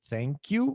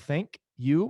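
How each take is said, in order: First: The two words are run together. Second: The two words are said separately. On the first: The speaker calls it right. "mas thank you" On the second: The speaker calls it wrong. "Now thank you"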